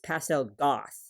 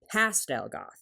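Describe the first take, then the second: First: The stress falls on the word goth. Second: The stress falls on the word pastel. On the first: She is mainly goth with some pastel touches. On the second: She is mainly pastel with some goth touches.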